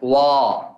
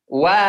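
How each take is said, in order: First: The syllable sounds thick and heavy. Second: The syllable sounds thin and light. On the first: The speaker calls it wrong. "Apa itu? Sifat tebal" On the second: The speaker calls it right. "Harus dibaca bagaimana?"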